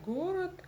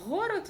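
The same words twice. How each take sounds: First: Said in the usual way. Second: "город" begun with a throaty fricative gh; distorted Г. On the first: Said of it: "вместо город". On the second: Shown as a demonstration. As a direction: scrape the first Г of "город" in the throat. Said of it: "букву Г умеют искажать".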